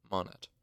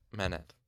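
First: "Monet" said with an open, rounded first vowel; corrected pronunciation of Manet. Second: "Manet" said MAN-et, short a and sounded t; mistaken pronunciation of Manet. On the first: Narrator fixing the name after checking, "Monet" with MON first. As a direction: say "Monet" with MON, not MAN. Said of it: "I was saying that incorrectly". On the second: Narrator slipping into the old reading, "Manet" as MAN-et. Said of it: "I just did it again". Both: Real, not acted.

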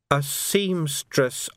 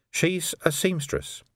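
First: "seamstress" drawn out very slowly; insistent correction. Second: Said in the usual way. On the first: A narrator's reading. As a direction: correct him, stretching out "seamstress" with emphasis. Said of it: "I said".

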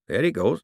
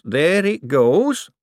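First: Said in the usual way. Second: Higher, louder and slow on goes, rising; drawn-out excited repeat. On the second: A narrator's reading. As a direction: stretch it out thrilled as the valve goes.

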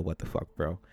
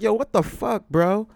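First: Said in the usual way. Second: High, loud outraged reaction; loud incredulous yell; yelled disbelief. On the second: Retold or imitated. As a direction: burst out with it, appalled. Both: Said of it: "of course, I didn't yell".

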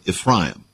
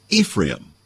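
First: Ephraim said ef-RY-um, with an "eye" vowel. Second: Said in the usual way. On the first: Shown as a demonstration. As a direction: say Ephraim with RY in the middle.

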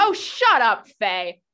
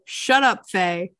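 First: Angry snapping. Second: Mild mock snap; retold snapping. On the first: Acted. Saphria to Faye after her apology, angry snapping. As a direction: snap at a meddling friend. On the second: Game master recapping Saphria to Faye, mild retold snapping. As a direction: retell the snub with a touch of bite.

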